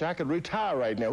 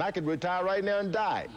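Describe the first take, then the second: First: High, insistent plea; rising plea. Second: Frantic peak. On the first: Fighter insisting to the voice, high plea. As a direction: push the point, getting higher. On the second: Fighter at the peak of arguing with death. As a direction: top of the panic, thrown out high. Climax of plea. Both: Retold or imitated.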